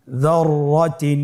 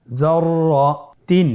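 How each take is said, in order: First: Said in the usual way. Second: যররাতিন stretched slowly with the doubled র held; slow drawn-out reading. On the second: Shown as a demonstration. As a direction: draw out যররাতিন. (ধীরে টেনে যররাতিন) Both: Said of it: "আমার সাথে বলুন".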